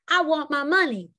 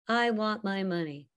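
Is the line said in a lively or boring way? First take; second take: lively; boring. First: It is said in a lively, animated way. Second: It is said in a flat, boring way.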